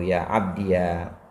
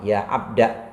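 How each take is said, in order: First: The word ends in an added syllable, iya. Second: The word ends in a short a vowel. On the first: "menetapkan ya mutakalim seraya dibaca fathah" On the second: "tapi alif dibuang"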